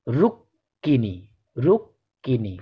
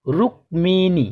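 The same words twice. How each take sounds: First: Slow corrected রুক্মিণী; correct pronunciation. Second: রুক্মিণী with a clear ক and ম, slowly; the common mistaken রুক্মিণী; wrong pronunciation. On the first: Teacher giving pupils the right form, slowly. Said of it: "এর সঠিক উচ্চারণ হবে". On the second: Teacher showing pupils the common mistake, slowly. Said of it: "অনেকেই বলে থাকেন এর উচ্চারণটা হবে". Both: Shown as a demonstration.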